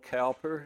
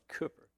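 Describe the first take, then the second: First: The first syllable sounds like 'cow'. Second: The first syllable sounds like 'coo'. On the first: "Spelled Cowper" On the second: "it's pronounced Cooper"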